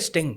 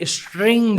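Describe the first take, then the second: First: The word is said without an r sound. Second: The word is said with an r sound. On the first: This is the drink's actual name. "एक drink है स्टिंग" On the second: This is how people in many areas say it. "बहुत सारे इलाकों में स्ट्रिंग बोला जाता है"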